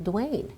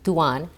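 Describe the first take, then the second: First: The vowel in the name is long. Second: The vowel in the name is short. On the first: The speaker calls it wrong. "people still pronounce it Dwayne" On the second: The speaker calls it right. "it should make the vowel sound short"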